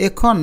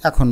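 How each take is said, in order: First: এখন as 'e-khon' with close e; spelling pronunciation. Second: এখন as 'ae-khon'; natural pronunciation. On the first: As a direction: read এখন with pure এ. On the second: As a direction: say এখন with open অ্যা. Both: Shown as a demonstration. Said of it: "আমরা নিশ্চয়ই এখন বলি".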